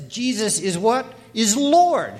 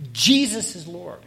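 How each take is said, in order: First: Big emphatic jump in pitch and volume on Lord; stress on Lord. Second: Jesus punched louder, "is Lord" falling away; firm emphasis on Jesus; stress on Jesus. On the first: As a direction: Lord punched high and loud. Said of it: "put the emphasis on the last word". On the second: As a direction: hit the first word, Jesus, hard. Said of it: "put the emphasis on the first word". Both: Shown as a demonstration.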